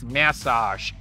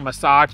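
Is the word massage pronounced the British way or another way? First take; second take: British; another way. First: It is pronounced the way English people say it. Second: It is pronounced in the speaker's non-British way. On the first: The speaker calls it right. "it's massage" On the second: The speaker calls it wrong. "they said that I said it incorrectly. It's not massage"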